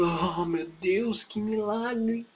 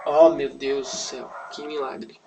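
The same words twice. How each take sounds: First: Slow, drawn-out mock awe, soft and rising high; hammed-up amazement. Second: Half-hearted slow "oh my God" wonder; badly acted amazement. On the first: Onlookers at the miracle, hammed-up slow amazement. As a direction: stretch it out in exaggerated hushed wonder. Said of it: "creio que eles ficaram muito". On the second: Onlookers seeing the girl wake, half-hearted acted amazement. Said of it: "Eu não sou bom em atuação".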